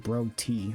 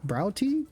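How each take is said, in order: First: The first syllable rhymes with 'go'. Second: The first syllable rhymes with 'cow'. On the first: "Sounds like I'm saying bro tea. Like bro" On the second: "Bro, like eyebrow. Oh, brow"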